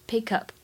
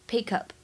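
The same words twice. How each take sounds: No difference in how they are said.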